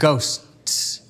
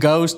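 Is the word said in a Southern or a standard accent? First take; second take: standard; Southern. First: It is said in a standard accent, consonants clear. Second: It is said in a Southern accent, consonants dropped. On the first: The speaker calls it right. "I learned there were consonants" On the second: The speaker calls it wrong. "my Southern accent"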